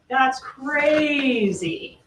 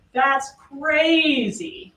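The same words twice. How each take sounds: First: That's crazy very slow, That's drawn out and leaned on; mock the defendant's long, slow That's crazy; imitating his stress. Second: That's crazy very slow, crazy drawn out and stressed; imitating his stress. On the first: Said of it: "He says it like that". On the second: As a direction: repeat the defendant's long, slow That's crazy. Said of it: "I'm not adding the emphasis on that syllable".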